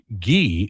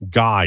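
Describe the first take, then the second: First: The name is said with a French pronunciation. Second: The name is said with an English pronunciation. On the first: "Guy is French" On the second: "Guy is English"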